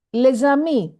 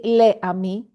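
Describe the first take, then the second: First: "les amis" said le-ZAMI, s as z; liaison with z. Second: "les amis" said le-AMI, s silent; no liaison. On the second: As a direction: say "les amis" unlinked as the wrong form. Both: Shown as a demonstration. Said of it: "We don't say les amis".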